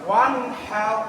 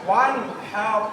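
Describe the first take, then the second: Both takes have the same delivery.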